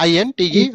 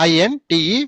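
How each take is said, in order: Both takes have the same delivery.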